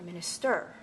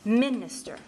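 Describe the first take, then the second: First: The stress is not on the first syllable. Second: The stress is on the first syllable. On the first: The speaker calls it wrong. "Not minister" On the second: The speaker calls it right. "the strongest stress is on the first syllable"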